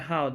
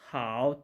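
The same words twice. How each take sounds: First: The word is said with the fourth tone. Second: The word is said with the third tone. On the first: This is the word meaning hobby. "I how, the fourth tone" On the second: This is the word on its own. "The original tone of this word how is how, third tone"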